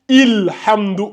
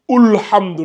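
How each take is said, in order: First: The word begins with an i vowel. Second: The word begins with a u vowel. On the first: "On ne dit pas Ilhamdou" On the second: "ou Ulhamdou"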